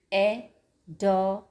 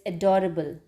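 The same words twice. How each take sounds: First: "Adorable" in four parts, a, do, ra, ble; syllable by syllable. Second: Said in the usual way. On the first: Shown as a demonstration. Teacher counting syllables for children, "Adorable" broken in four. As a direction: pause between each syllable of "Adorable". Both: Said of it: "Four syllables".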